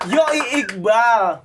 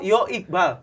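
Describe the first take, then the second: First: The first word ends with an 'oi' glide. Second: The first word ends with a plain 'o'. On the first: The speaker calls it wrong. "Nggak usah yoi" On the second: The speaker calls it right. "oh Yo Iqbal yang benar"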